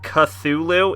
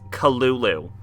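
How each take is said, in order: First: The name is said with a 'th' sound. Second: The name is said with only 'k' and 'l' sounds. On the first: The speaker calls it wrong. "it's not Cthulhu" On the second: The speaker calls it right. "it's Kalulu"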